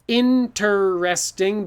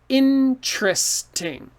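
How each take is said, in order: First: It is said with four full syllables. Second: It is said with three syllables, one vowel dropped. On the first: The speaker calls it wrong. "too many syllables" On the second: The speaker calls it right. "So this E disappears"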